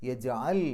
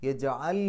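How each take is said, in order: The two takes are said the same way.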